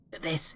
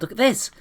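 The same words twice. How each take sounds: First: Put-on hushed kid. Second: Excited call. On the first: Cal repeats it hushed. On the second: Acted. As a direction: kid calls out high and loud, rising on this. Cal shows off bowl.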